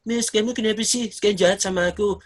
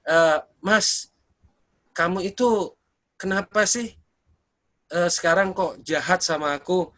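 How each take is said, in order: First: It is said in a mocking, whiny imitation. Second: It is said as a sincere complaint.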